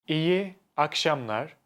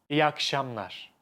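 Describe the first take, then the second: First: The vowel is kept. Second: The vowel is dropped.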